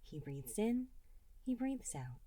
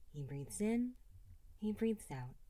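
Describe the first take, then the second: No difference in how they are said.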